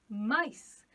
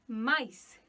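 No difference in how they are said.

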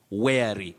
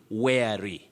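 First: The first vowel sounds like 'air'. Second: The same.

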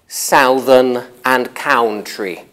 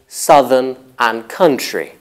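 First: The stressed vowels sound like 'ow' in 'now'. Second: The stressed vowels are not the 'ow' sound. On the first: The speaker calls it wrong. "she's been misled by the spelling into thinking they're pronounced with ow. But native speakers don't say" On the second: The speaker calls it right. "We say"

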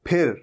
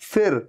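First: Both lips press together for the sound. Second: Upper teeth touch the lower lip. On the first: The speaker calls it right. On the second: The speaker calls it wrong.

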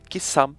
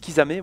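First: The final vowel is left silent. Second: The final vowel is pronounced. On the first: This is the speaker's own preferred way. "on prononce pas le E" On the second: This is how some other people say it. "il y en a qui disent Kisame"

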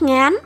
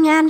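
First: The syllable is said on a rising tone. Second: The syllable is said on a level tone.

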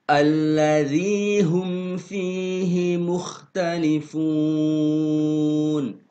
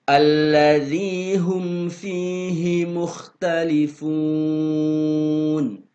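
Both takes have the same delivery.

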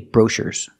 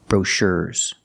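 First: The stress falls on the first syllable. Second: The stress falls on the second syllable. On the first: The speaker calls it wrong. "I cannot say brochures" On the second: The speaker calls it right. "We have to put the stress on the second syllable"

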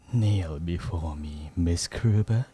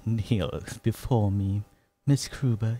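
First: It is said in a deep, gruff warrior voice. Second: It is said in a sweet, obsessive yandere voice. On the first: "Just a deep voice" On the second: "Wait, yandere"

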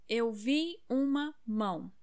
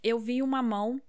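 First: The phrase is said slowly with clear word breaks. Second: The phrase is said quickly with words run together.

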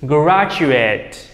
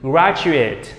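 First: The last syllable sounds like 'eight'. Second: The last syllable sounds like 'it'. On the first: It is used as a verb. "tất cả đều động từ nên thầy đọc thành chữ eight" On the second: It is used as a noun. "Graduate là danh từ"

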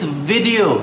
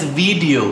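First: The first syllable rhymes with did. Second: The first syllable does not rhyme with did. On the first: The speaker calls it right. "It's video. Think of the pronunciation as V-I-D, vid" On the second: The speaker calls it wrong. "I hear people pronouncing and spelling it as video"

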